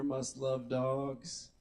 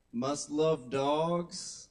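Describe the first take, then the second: First: Slow, drawn-out repeat of the cliché; slow quoted phrase. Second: Drawn-out, slow quoting of a profile line; slow quoted phrase. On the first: Comic repeating a dating profile cliché, slow and mocking. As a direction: savour each word mockingly. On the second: Comic reading a dating profile cliché to the crowd, slowly drawn out. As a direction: stretch it like a cliché you've read too often. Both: Shown as a demonstration.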